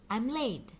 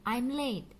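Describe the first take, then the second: Both takes have the same delivery.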